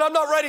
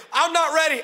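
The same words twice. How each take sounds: First: Higher, louder mock panic; panicked plea. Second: Higher, louder plea through laughter; mock panic, laughing. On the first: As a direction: plead in half-joking alarm. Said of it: "I said". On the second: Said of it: "[name], say it again".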